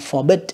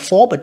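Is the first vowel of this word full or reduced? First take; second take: reduced; full. First: The first vowel is weak and reduced. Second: The first vowel is a full O sound. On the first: The speaker calls it right. "chúng ta sẽ phải hạ âm" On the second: The speaker calls it wrong. "không được là forbid"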